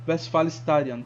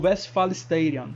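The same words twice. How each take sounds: First: The name is said with German sounds. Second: The name is said with English sounds. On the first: "a segunda foi em, em alemão" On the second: "a primeira pronúncia foi em inglês"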